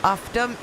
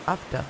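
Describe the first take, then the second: First: Higher "ufta" with questioning rise; unsure "ufta", lifted at the end; tentative pronunciation. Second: Short "ufta" with falling tune; second try at "ufta", dropping at the end; trying out pronunciation. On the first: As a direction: try out "ufta", asking if it's right. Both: Shown as a demonstration. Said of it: "am I saying it right?".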